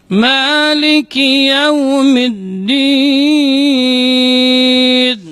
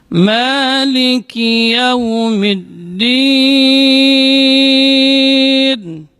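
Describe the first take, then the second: The two takes are said the same way.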